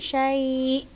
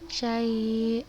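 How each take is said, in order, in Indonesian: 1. Hamzah di akhir ditekan dengan jelas. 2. Hamzah di akhir lemah, tanpa penekanan. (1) "tapi kita tekankan syai" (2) "nah bukan seperti itu"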